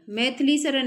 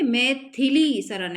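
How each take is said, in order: First: मैथिली with थ run straight into ली; mispronounced MAITHLI. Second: मैथिली slowly, with a clear short i after थ; correct MAI-THI-LI. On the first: Teacher showing students the wrong form, मैथिली said as "maith-li". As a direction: say मैथिली as "maith-li", dropping the middle i. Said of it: "मैथिली Sharan नहीं है". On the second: Teacher correcting a spelling, मैथिली slow with its "thi" sounded. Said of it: "थ पे छोटी की मात्रा भी आएगी". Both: Shown as a demonstration.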